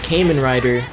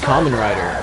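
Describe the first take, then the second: First: The first vowel sounds like 'ay' in Cayman. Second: The first vowel sounds like 'ah'. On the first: The speaker calls it wrong. "So I pronounced it ... I just read it as Cayman" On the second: The speaker calls it right. "I knew it was pronounced"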